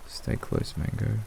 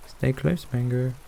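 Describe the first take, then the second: First: Soft, hushed aside; murmur. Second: Higher pet bird echo; parroting. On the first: Owner to parrot while climbing to attic, murmuring. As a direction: murmur it under your breath. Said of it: "I murmured". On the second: Parrot copies owner on the climb, squawky. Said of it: "he parroted". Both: A narrator's reading.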